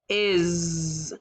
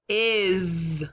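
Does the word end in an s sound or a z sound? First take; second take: z sound; z sound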